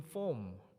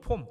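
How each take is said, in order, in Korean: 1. 영어식으로 혀를 굴린 r 발음으로 해요. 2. 한국 외래어 pom으로 발음해요. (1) "form 제가 막 이렇게 굴렸는데요" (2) "우리식 발음으로 하면"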